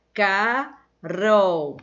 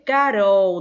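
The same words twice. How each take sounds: First: Carol said slowly as "Ca... rol", with a clear gap; split into syllables. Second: Said in the usual way. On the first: Shown as a demonstration. Teacher showing pupils how to separate Carol into "Ca-rol", syllable by syllable. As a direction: break Carol into two long syllables, Ca and rol. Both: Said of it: "você vai separar Carol".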